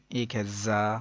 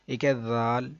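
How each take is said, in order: First: زا with a hissing z; sharp za. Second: ذال with a soft voiced th; soft dhal. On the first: Teacher contrasts two letters, sharp hissing زا. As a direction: say زا hard, with a whistling z. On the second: Teacher contrasts two letters, soft ذال. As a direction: say ذال gently, soft th sound. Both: Shown as a demonstration.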